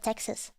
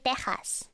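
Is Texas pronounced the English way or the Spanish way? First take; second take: English; Spanish. First: The word is pronounced the English way. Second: The word is pronounced the Spanish way. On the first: "instead of Texas" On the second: "In Spanish, you say Texas"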